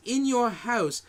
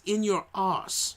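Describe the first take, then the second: First: Said in the usual way. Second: Slow Manchester "In your arse"; Manchester accent. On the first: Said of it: "the way he says it with his accent from Manchester". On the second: Retold or imitated. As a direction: drawl "In your arse" like a Mancunian. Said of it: "with his accent from Manchester".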